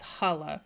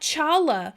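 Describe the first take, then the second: First: It begins with a throaty h sound. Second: It begins with a ch sound. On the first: The speaker calls it right. "It's it's holla" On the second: The speaker calls it wrong. "said that wrong my whole life"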